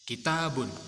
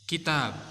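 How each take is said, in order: First: The word ends with an added 'un' sound. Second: The word ends on a bare 'b' sound. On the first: "Boleh dibaca kitabun, itu berarti dibaca diharokati semua" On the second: "belakangnya dimatikan atau disukun ya huruf ba-nya"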